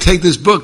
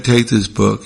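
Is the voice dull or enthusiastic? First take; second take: enthusiastic; dull. First: It is said in a lively, enthusiastic way. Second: It is said in a flat, unenthusiastic way. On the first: The speaker genuinely loves the book. The speaker calls it right. "That little enthusiasm goes a long way" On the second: The speaker does not really care about the book. The speaker calls it wrong.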